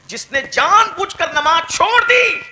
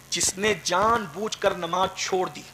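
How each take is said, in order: First: Stern cry. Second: Said in the usual way. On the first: Retold or imitated. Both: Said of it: "آقا فرما رہے ہیں".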